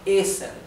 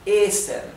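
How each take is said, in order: First: The first vowel is long. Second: The same.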